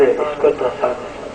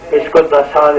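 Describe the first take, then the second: First: Softer and slow, pressing the command down; quieter slow repeat. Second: Said in the usual way. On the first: Retold or imitated. Moses repeating his order to the earth, softer and slow. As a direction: let the order sink low and slow. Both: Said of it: "اور آپ کہتے رہے، کہتے رہے".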